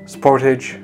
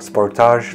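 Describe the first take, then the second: First: It is pronounced in a non-Canadian way. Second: It is pronounced the way Canadians say it.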